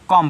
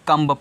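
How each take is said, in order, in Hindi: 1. शब्द m पर खत्म होता है, उसमें b नहीं है। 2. अंत में b की आवाज़ सुनाई देती है। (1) "कॉम पढ़ना है।" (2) "अगर आप कम्ब पढ़ोगे तो रॉन्ग हो जाएगा।"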